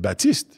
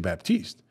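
First: It is said the French way, P silent. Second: It is said the English way, P sounded. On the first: The speaker is talking in French. "if you were speaking to me in French, I would have said Baptiste" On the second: The speaker is talking in English. "so in English, that's what I would say"

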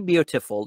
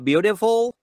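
First: The t is a clear, crisp t sound. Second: The t is a soft, quick flap sound.

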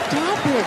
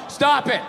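First: It is said playfully and flirtatiously. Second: It is said flatly, like a dull reading.

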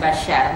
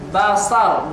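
First: The middle consonant is a 'sh' sound. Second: The middle consonant is a plain 's' sound. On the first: The speaker calls it wrong. "bukan basyar" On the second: The speaker calls it right. "basar bukan basyar"

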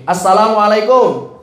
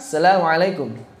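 First: It is said with an Indonesian accent. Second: It is said with an Arabic accent. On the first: The speaker calls it wrong. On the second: The speaker calls it right.

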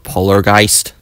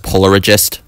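First: The name is said with three syllables. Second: The name is said with four syllables. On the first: The speaker calls it right. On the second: The speaker calls it wrong.

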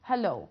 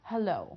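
First: The stress is on the second syllable. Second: The stress is on the second syllable.

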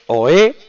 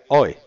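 First: The stress is on the second syllable. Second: The stress is on the first syllable. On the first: The speaker calls it right. "Porque es aguda y termina en vocal" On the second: The speaker calls it wrong. "Si no sería oe"

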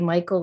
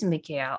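First: The name is pronounced the everyday English way, Michael. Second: The name is pronounced the traditional way, Mikhail. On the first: This is the habitual everyday form of the name. "I just always say Michael" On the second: This is the traditional form of the name. "his traditional pronunciation is Mikhail"

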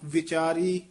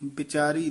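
First: The first consonant is a v sound. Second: The first consonant is not a v sound. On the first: The speaker calls it right. "ਵਾਵਾ ਵਿਚਾਰੀ, ਵਾਵਾ ਬੋਲੋ" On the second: The speaker calls it wrong. "ਵਿਚਾਰੀ ਨਹੀਂ"

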